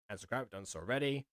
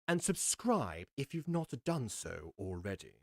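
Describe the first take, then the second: First: The phrase is rushed out quickly. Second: The phrase is said slowly and carefully. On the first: The speaker calls it wrong. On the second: The speaker calls it right.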